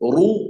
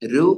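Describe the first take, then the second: First: The r is heavy, said with a full mouth. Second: The r is light, said with a thin mouth. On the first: The speaker calls it right. "റു എന്ന് പറയണം" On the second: The speaker calls it wrong. "രു എന്ന് പറഞ്ഞാൽ പോരാ"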